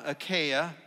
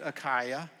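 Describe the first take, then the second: First: Achaia said uh-KAY-uh; first pronunciation. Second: Achaia said uh-KYE-uh; alternative pronunciation. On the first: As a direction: say Achaia with a long "ay" in the middle. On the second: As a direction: say Achaia with an "eye" in the middle. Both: Shown as a demonstration. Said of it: "you can pronounce it".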